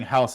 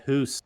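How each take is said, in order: First: Said in the usual way. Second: "hoose" with an exaggerated oo vowel; "hoose", rhyming with moose; Canadian "hoose". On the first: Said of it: "We say house the correct way". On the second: Shown as a demonstration. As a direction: say "hoose" as a mock Canadian house. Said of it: "the way they say house".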